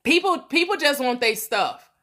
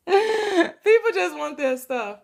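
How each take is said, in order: First: Said in the usual way. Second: "people just want their stuff" said higher through leftover laughter; laughing. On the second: Real, not acted. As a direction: let the laugh carry into the words.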